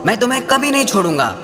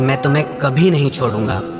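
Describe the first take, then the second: First: It is said in a harsh, angry tone. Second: It is said in a warm, loving tone. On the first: "वही शब्द किसी को क्रोध से कहो" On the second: "प्यार से कहो"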